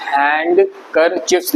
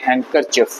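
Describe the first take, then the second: First: हैंडकरचिप्स slowly with the d sounded; as written. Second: हैंडकरचिप run together as han-ker-chif; HANDKERCHIEF said without its d; silent d. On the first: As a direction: separate hand from kerchiefs in हैंडकरचिप्स. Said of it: "हैंडकरचिप्स लिखते हैं". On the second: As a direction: drop the d in हैंडकरचिप. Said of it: "इसको बोलते हैं हैंडकरचिप". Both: Shown as a demonstration.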